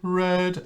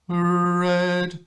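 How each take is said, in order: First: The R is a full, tight consonant. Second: The R is a soft, vowel-like er sound. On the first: "if I do a proper R, correct R, there's actually a lot of tightness in the tongue" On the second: "if I change the R to an er"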